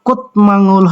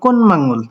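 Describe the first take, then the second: First: A t sound comes before the m. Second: An n sound comes before the m. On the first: This is how it would be read unchanged. "হওয়ার কথা" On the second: This is how it actually comes out. "কিন্তু হয়ে গেল"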